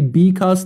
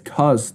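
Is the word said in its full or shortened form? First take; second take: full; shortened. First: The word is said with both syllables. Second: The first syllable is dropped from the word. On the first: "She doesn't say because" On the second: "She says cause"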